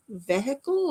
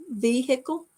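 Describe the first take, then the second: First: Vehicle as VEH-ickle, short first vowel; different pronunciation of vehicle. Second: Vehicle as VEE-hick-ul, with a sounded h; questioning "vehicle", long VEE and a clear HICK; own way of saying vehicle. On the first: Asking how London says it, vehicle as VEH-ickle. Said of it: "Do you say vehicle differently". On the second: Asking why viewers like her word, vehicle as VEE-hick-ul. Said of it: "how I say vehicle". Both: Shown as a demonstration.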